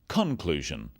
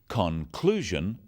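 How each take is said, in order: First: The stress falls on an unusual syllable. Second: The stress falls on the usual syllable. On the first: The speaker calls it wrong. "not conclusion" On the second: The speaker calls it right. "The wrong stress makes it hard to understand"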